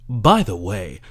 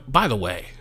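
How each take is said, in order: First: "by the way" with a louder, punched start; emphatic "by the way". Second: Said in the usual way. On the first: Real, not acted. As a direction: hit "by" hard in "by the way". Repeats phrase for emphasis.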